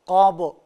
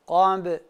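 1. b sesi kalın ve yoğundur. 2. b sesi ince ve hafiftir. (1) "ba harfi kalın bir şekilde okunmamalı. Yani gabu, gabu şeklinde olmamalı" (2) "ba harfi ise ince. Gambe, gambe şeklinde okumaya dikkat edelim"

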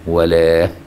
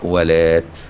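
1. تنتهي الكلمة بصوت h خفيف. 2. تنتهي الكلمة بصوت t واضح. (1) "يقف عليها بإيه؟ بالهاء" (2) "وباقي القراء ولات"

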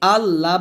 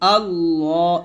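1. L ধ্বনিটি পাতলা ও সরু। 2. L ধ্বনিটি মোটা ও ভারী। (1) "আবার আল্লাহ বলবেন না" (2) "এখানে লামটা অবশ্যই মোটা করবেন"

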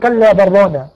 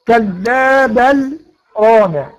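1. تُدغم اللام في الراء دون فاصل. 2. تُمدّ اللام ثم تُسكت سكتة خفيفة. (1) "في قراء تانيين هيضغموا اللام" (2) "عند الإمام حفص يبقى فيها إيه؟ سكتة لطيفة"

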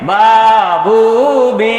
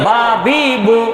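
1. উচ্চারণগুলো টেনে লম্বা করে বলা হয়। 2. উচ্চারণগুলো ছোট আর তাড়াতাড়ি বলা হয়। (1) "এইভাবে পড়ছি না? এই টান দিয়ে পড়া যাবে না" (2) "তাড়াতাড়ি"

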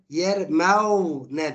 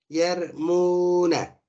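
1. Ortadaki hecede w ile bir diftong var. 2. Ortadaki hecede uzun bir u ünlüsü var. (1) "Fetalı olsaydı yer mev ne derdik" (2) "dammeleyip uzatıyoruz"

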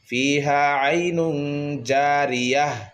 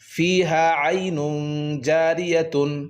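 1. শেষ শব্দটি একটি হালকা 'h' ধ্বনি দিয়ে শেষ হয়। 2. শেষ শব্দটি একটি পূর্ণ 'tun' ধ্বনি দিয়ে শেষ হয়।

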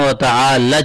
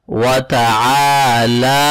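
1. آخری حرکت چھوٹی پڑھی جاتی ہے۔ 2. آخری حرکت کھینچ کر لمبی پڑھی جاتی ہے۔ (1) "یہاں پر عموماً لوگ غلطی کرتے ہیں" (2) "اس کو ہم لونگ کر کے پڑھتے ہیں"

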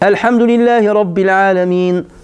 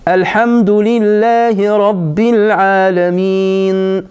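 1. Le verset est récité rapidement. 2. Le verset est récité lentement. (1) "Lorsque je vais lire vite" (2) "pris plus de temps"

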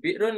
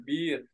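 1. Kata itu diucapkan lengkap dengan akhirannya. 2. Kata itu diucapkan pendek tanpa akhiran. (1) "Kayak birun" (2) "birun di sana bir ya"

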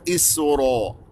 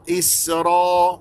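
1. الحركة بعد الراء مستديرة. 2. الحركة بعد الراء مفتوحة وغير مستديرة. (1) "وليس إسراء" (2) "نباعد بين الفكين حتى أنا أسمع الفتحة المنضبطة"

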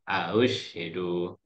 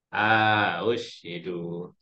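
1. Vokal pertama pendek, tanpa dipanjangkan. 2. Vokal pertama dipanjangkan. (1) "Kalau yang pertama kan tadi yang yang ini kan" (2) "kemudian yang keduanya"

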